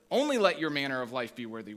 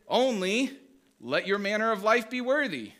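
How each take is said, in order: First: "only" punched, rest quicker; stress on only. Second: Only rising, then worthy stressed and falling. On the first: Pastor showing the congregation the other reading, stress on only. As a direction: hit "only" hard and rush the rest. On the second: Pastor showing the congregation one way to read it, stress on worthy. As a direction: lean on "worthy", with "only" lifted up. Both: Shown as a demonstration. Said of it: "Where do you put the emphasis".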